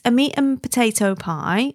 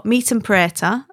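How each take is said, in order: First: Said in the usual way. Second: "preta" squashed into two syllables, Wigan style; local Wigan pronunciation. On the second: Shown as a demonstration. Explaining the pie's local name, Wigan pronunciation of "preta". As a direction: say "meat and preta" with potato shortened to "preta". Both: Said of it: "as it's called".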